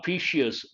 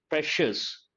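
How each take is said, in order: First: An extra 'ee' sound comes before the ending. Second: No extra 'ee' sound comes before the ending. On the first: The speaker calls it wrong. "Not precious" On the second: The speaker calls it right. "I sound should not be there"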